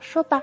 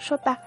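First: It is said lightly and breezily. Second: It is said heavily and solemnly.

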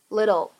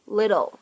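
First: The t is pronounced as a quick flap. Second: The t is pronounced as a quick flap.

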